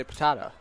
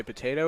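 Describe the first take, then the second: First: "potato" said as po-TAH-to; alternative pronunciation of potato. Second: Said in the usual way. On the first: Shown as a demonstration. Colour man offers booth partner a choice, "potato" as po-TAH-to. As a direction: say "potato" with a broad ah in the middle. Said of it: "or do you say potato". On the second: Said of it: "do you say potato or".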